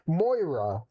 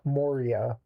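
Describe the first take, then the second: First: The name sounds like MOY-ra, two syllables. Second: The name sounds like mo-REE-a, three syllables. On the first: The speaker calls it right. "Moira, not Moria" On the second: The speaker calls it wrong. "I've been pronouncing it wrong the whole time"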